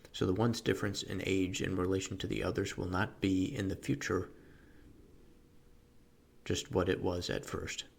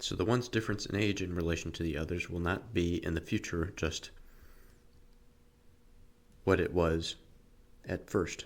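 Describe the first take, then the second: No difference in how they are said.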